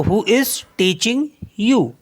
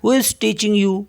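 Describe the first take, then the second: First: Slow, clear and word by word; slow model sentence. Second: Said in the usual way. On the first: Shown as a demonstration. Teacher modelling the sentence for students, slow and careful. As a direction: spell it out slowly for learners. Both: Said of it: "आपको कौन पढ़ा रहा है".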